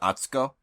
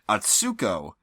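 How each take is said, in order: First: The middle syllable is not stressed. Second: The middle syllable is stressed. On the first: The speaker calls it right. "a more accurate Japanese pronunciation would be closer to" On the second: The speaker calls it wrong. "is how they say it most of the time"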